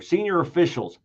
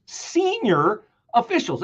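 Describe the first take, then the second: First: Said in the usual way. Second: "Senior officials" higher and slow, each word weighed; slow, pointed "Senior officials"; slow emphasis. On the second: Shown as a demonstration. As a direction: pause over "Senior officials" as if stunned. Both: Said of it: "every word you could pause over".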